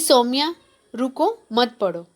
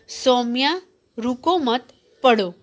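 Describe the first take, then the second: First: The pause comes after 'ruko', not after 'mat'. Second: The pause comes after 'mat', not after 'ruko'.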